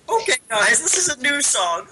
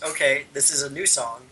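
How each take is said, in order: First: It is said in an imitation of the singer. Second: It is said in the speaker's normal voice.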